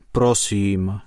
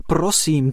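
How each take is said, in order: First: Gentle plea. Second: Frightened plea. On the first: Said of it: "žádal je skřítek". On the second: The elf begs the ants to spare his tree, scared. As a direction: beg in alarm. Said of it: "prosil mravence modřula". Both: A narrator's reading.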